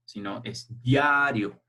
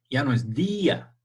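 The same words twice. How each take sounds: First: Diario said slowly, stress moved to the a. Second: Día, stressed dí-a, two syllables; teacher stressing the í in día for her class. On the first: Teacher shows pupils the stress shifting in diario. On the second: Teacher models día split into two syllables. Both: Shown as a demonstration. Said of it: "la tilde o el acento se ha recorrido".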